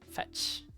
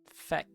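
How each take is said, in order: First: The name ends with a ch-like sound. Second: The name ends with a k sound. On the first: "fetch, but without a T" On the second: "That's how you pronounce it"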